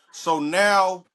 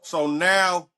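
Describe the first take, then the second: No difference in how they are said.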